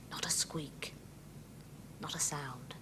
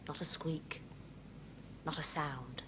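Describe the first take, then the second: First: Whispered rhyme line; breathy secret whisper. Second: Hushed, soft rhyme line; quiet. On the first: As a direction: whisper it so nobody hears. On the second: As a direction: keep it low and hushed. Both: Shown as a demonstration. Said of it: "Try that again".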